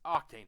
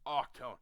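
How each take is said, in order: First: The last syllable rhymes with 'rain'. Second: The last syllable rhymes with 'bone'. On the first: This is the name the speaker prefers. "No, to me his name is Octane" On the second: This is the official name. "Now I know that his name is Octone"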